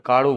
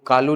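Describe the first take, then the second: First: The middle consonant is a retroflex flap sound. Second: The middle consonant is a plain l sound. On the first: "Rajasthan वाले हिस्से में ... काड़ू बोलेगा" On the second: "वो कालू नहीं बोले"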